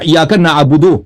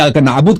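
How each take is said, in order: First: The phrase ends with a final vowel sound. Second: The phrase ends on a bare consonant. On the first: More words follow without a pause. The speaker calls it wrong. "या का नाबुदो गलत है वक्फ में" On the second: The reciter stops here. The speaker calls it right. "अगर यहां पे रुक जाए ना तो ये जरूरी है कि"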